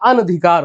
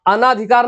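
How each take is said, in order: First: The vowel after the first n is short. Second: The vowel after the first n is long. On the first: The speaker calls it right. "ये बड़ा का मात्रा नहीं रहेगा यहाँ पे" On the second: The speaker calls it wrong. "अनाधिकार नहीं होता है"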